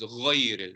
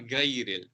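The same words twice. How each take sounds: First: The gh sound is heavy with rounded lips. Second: The gh sound is light and flat. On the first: The speaker calls it right. "with a round mouth" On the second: The speaker calls it wrong. "Gha is not"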